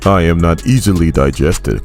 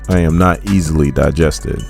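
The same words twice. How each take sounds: First: It is said in an attempted Russian accent. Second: It is said in the speaker's normal accent. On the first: "I'm gonna try it. ... That was horrible" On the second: "I wish I could have a Russian accent"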